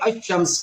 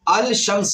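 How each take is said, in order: First: The L merges into a doubled sh sound. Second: The L sound is clearly heard before shams. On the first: The speaker calls it right. "बल्कि अशम्स पढ़ेंगे" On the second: The speaker calls it wrong. "अल शम्स नहीं पढ़ेंगे"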